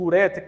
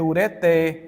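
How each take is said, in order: First: The stress is on the second-to-last syllable. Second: The stress is on the last syllable. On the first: The speaker calls it wrong. "então eu estou pronunciando uma silabada" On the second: The speaker calls it right. "como aqui não tem acento, gente, a pronúncia aqui é ureté"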